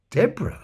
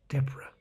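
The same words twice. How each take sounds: First: "Deborah?" higher, rising in disbelief; incredulous echo. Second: Said in the usual way. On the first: Retold or imitated. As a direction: echo "Deborah?" as a stunned question. Ron echoes name in disbelief.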